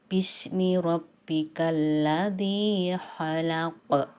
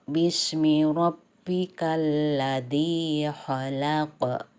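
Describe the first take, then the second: No difference in how they are said.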